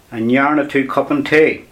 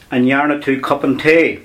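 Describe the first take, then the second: No difference in how they are said.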